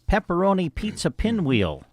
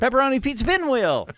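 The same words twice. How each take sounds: First: It is said at a normal reading pace. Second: It is said very fast, rushed together.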